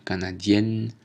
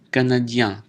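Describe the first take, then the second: First: Canadienne ending in èn, n sounded; feminine pronunciation. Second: Canadien ending in a nasal vowel, no n; masculine pronunciation. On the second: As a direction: keep the n of canadien silent. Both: Shown as a demonstration. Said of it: "prononciation différente".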